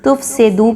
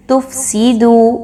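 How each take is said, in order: First: تفسیدو with س bent toward a vague e sound; تفسیدو, the س vowel wrong; wrong pronunciation. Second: تفسیدو very slow with a pure zer on س; right way: تفسیدو; correct pronunciation. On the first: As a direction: common mistake: تفسیدو said lazily. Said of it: "سین کی حرکت کو مجہول کر دیتے ہیں". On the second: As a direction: draw out تفسیدو, س with a clear zer. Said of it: "سین کو زیر کے ساتھ پڑھنا". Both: Shown as a demonstration.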